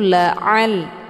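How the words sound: The ain sound is pressed from the throat. The speaker calls it right. "keluar ain ini dari tenggorokan bagian tengah"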